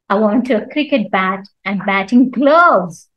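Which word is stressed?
gloves. The stress falls on the word gloves. Gloves are wanted, nothing else. "Nothing else but gloves"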